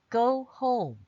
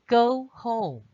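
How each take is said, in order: No difference in how they are said.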